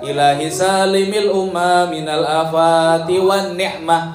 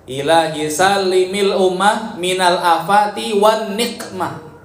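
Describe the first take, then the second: First: The last word has a soft throat sound. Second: The last word has a hard, bouncing q. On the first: It asks for protection from blessings. The speaker calls it wrong. "itu salah" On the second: It asks for protection from punishment. The speaker calls it right. "yang benar adalah pakai qaf ... pakai kol-kola"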